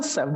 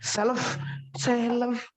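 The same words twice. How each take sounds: First: "self" as "sef", no L; unread L. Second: "self" as "sel-lef", L sounded; higher, exaggerated L in "self"; wrong self. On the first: Teacher giving the reading, self as "sef". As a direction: drop the L from "self". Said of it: "L-nya nggak dibaca". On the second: Teacher mocking the mistake, self as "sel-lef". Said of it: "bukan self". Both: Shown as a demonstration.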